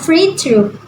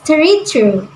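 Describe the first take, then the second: First: The first word begins with an 'f' sound. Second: The first word begins with a 'th' sound. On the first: The speaker calls it right. "a player can take a free throw" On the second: The speaker calls it wrong. "often mispronounced as three throw"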